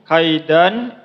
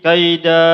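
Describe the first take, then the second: First: The word ends with an n sound. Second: The word ends with a long a vowel. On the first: The reading continues into the next word. "Bisa dibaca menyambung kaidan" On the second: The reader stops at this word. "bisa juga berhenti kaida"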